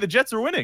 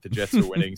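First: The tone sounds upbeat and excited. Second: The tone sounds annoyed and exasperated. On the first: The speaker is happy the team is winning. The speaker calls it wrong. "it's not with that type of tone. It's not" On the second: The speaker is upset the team is winning. The speaker calls it right. "It's like, oh, God damn it"

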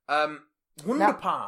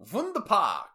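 First: It is said in a plain English accent. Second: It is said in a German accent.

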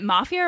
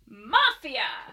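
First: The word is said plainly, without exclamation. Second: The word is said loudly as an exclamation.

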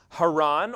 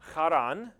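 First: The name begins with a plain h sound. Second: The name begins with a throaty kh sound.

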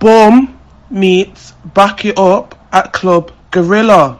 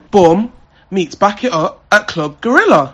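First: It is said at a slower pace. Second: It is said at a fast pace.

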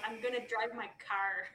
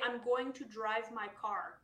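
First: It is said with dragged R's, Nova Scotia style. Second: It is said without dragged R's, BC style.

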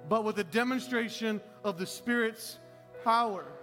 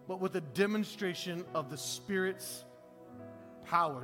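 First: It is said loudly with strong energy. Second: It is read in a plain, calm voice.

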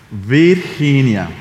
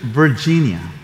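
First: The name is pronounced with Spanish sounds. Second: The name is pronounced with English sounds.

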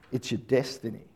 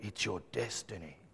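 First: It is said in his normal voice. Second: It is said in a deep Darth Vader voice.

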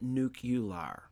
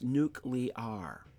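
First: The middle syllable sounds like 'yoo' before 'lar'. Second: The middle syllable sounds like 'lee' before 'ar'. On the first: The speaker calls it wrong. "It is not nuke-ular" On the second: The speaker calls it right. "It's nuke-li-ar"

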